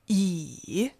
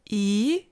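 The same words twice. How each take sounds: First: The pitch dips low, then rises. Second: The pitch rises from mid to high.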